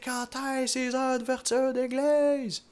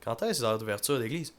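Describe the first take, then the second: First: The question is said loudest of all. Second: The question is said at normal volume.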